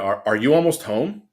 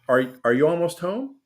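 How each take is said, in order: First: It sounds annoyed and harsh. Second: It sounds warm and friendly.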